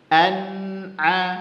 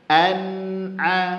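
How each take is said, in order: Both takes have the same delivery.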